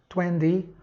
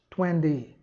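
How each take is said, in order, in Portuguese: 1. Tem um t suave, parecido com d, americano. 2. Tem um t suave, parecido com d, americano.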